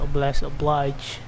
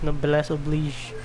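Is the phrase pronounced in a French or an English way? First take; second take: English; French. First: The phrase is pronounced the English way. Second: The phrase is pronounced the French way. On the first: The speaker calls it wrong. "not Noblesse Oblige" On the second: The speaker calls it right. "it's pronounced as Noblesse Oblige ... I think it's French"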